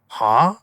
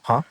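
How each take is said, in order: First: It is drawn out and sounds aggressive. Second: It is short and quick.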